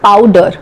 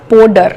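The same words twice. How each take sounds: First: It is said in a standard English accent. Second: It is said in a Punjabi English accent.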